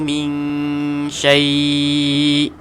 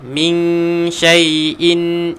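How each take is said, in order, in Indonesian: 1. Vokal dalam syai dibaca panjang, ditarik. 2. Vokal dalam syai pendek, dibaca bersambung. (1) "Empat harakat" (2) "bersambung secara wasal, ia akan jadi pendek lah"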